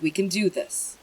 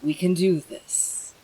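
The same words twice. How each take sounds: First: Said in the usual way. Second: Slow, firm self-pep talk; rally yourself, stress "do"; determined. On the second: Shown as a demonstration.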